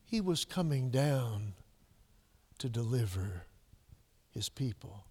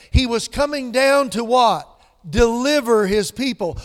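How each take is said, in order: First: Soft, low and slow, deliver trailing away; hushed, slow. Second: Coming down to what, shouted high; loud preaching. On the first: Preacher answering his own question, hushed and slow. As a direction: let coming down to deliver his people fall to a near-hush. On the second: Preacher asking the congregation, booming rhetorical question. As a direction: hit Deliver hard and loud. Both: Acted. Loud then hushed repeat.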